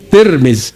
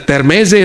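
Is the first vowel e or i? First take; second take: i; e. First: The first vowel is an i sound. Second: The first vowel is an e sound. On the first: The speaker calls it right. "Bacanya kalau bahasa Inggris, Tir, Tirmiz" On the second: The speaker calls it wrong. "Jangan dibaca Termeze"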